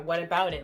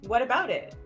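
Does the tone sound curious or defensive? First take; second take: defensive; curious. First: It sounds defensive and annoyed. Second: It sounds like a genuine, curious question. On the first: Why do you care about it? "Like, what's it to you? Why do you care? That's the kind of tone you can take" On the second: Tell me what the concern is. "Or you can take a genuine question tone"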